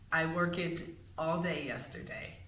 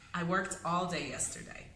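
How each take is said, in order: First: The word worked is said with two syllables. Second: The word worked is said with one syllable. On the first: The speaker calls it wrong. "creating a second syllable where it does not belong" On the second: The speaker calls it right. "So we have to say"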